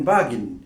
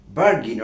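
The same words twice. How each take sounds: First: বার্গেন as British "BAH-gin", no r; British pronunciation. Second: বার্গেন the American way, "BAR-gin", r sounded; American pronunciation. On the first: Teacher quoting a British speaker's version, British pronunciation. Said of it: "British স্পিকারকে বলতে শুনবেন". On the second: Teacher showing what Americans say, American pronunciation. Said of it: "American স্পিকারকে বলতে শুনবেন". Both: Shown as a demonstration.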